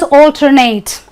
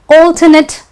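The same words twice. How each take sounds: First: The last syllable sounds like 'ate'. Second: The last syllable sounds like 'it'. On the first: It is used as a verb. "if it is a verb, I will say let us alternate" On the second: It is used as a noun or adjective. "but if it is a noun"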